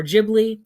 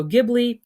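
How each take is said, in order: First: Ghibli with a soft G, like a J; J sound opening Ghibli, said louder; soft-G pronunciation. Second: Ghibli with a hard G, as in "give"; hard G opening Ghibli; hard-G pronunciation. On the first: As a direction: say Ghibli as "JIB-lee". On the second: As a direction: say Ghibli starting "GIB-lee". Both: Shown as a demonstration. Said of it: "however you pronounce it".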